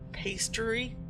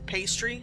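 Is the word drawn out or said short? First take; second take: drawn out; short. First: The word is stretched out and lengthened. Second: The word is said short and ordinary. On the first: "with a little bit drawn out" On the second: "as you would usually say"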